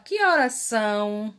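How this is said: It is said with emphatic question intonation. "e der ênfase"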